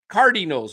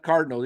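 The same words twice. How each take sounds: First: The word is said with a Spanish-style accent. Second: The word is said with a plain American accent. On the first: This imitates how another fan shouted it. "It was like Cardinals" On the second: This is the usual way to say it. "not Cardinals"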